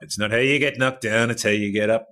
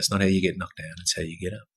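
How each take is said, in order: First: It is said with the voice raised loudly. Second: It is said at a lower, steadier volume.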